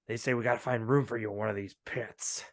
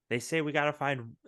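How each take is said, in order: First: It is said in a gruff put-on voice. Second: It is said in a natural voice.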